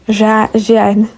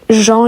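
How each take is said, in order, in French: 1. Le nom se dit comme le disent les lecteurs polonais. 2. Le nom se dit à la prononciation française normale.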